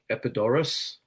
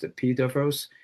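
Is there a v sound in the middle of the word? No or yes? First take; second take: no; yes. First: It is said with an 'aw' vowel sound. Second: It is said with a 'v' sound. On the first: "In English, it looks like" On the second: "in Greek, it's pronounced"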